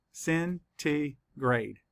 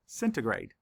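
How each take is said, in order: First: Slow, each syllable pulled apart. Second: Said in the usual way. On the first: Shown as a demonstration. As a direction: sound out each syllable slowly. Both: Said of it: "count the syllables".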